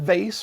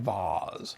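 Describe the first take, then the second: First: The vowel sounds like the one in face. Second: The vowel sounds like the one in father. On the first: This is the American way of saying it. "my pronunciation of vase rhymes with face" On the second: This is how most of the world says it. "the rest of the planet where it sounds more like vase"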